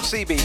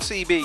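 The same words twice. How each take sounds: First: The name is said as one word. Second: The name is said as two letters. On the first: The speaker calls it right. "just one word" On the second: The speaker calls it wrong. "not CB"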